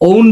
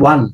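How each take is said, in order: First: The vowel sounds like the word 'own'. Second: The vowel sounds like the word 'one'. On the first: The speaker calls it wrong. "ওন বলি আমরা এটাকে" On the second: The speaker calls it right. "এটার উচ্চারণ ওয়ান"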